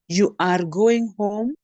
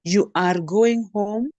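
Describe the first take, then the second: First: It is said with the tune of a question. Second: The same.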